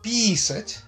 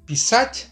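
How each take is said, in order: First: The stress is on the first syllable. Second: The stress is on the second syllable. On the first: It means to urinate. "tekanannya di pi" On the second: It means to write. "kalau tekanannya di sać"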